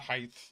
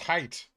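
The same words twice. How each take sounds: First: The word ends with a th sound. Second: The word ends with a plain t sound. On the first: The speaker calls it wrong. "not height. Height isn't a real word" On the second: The speaker calls it right. "It's height"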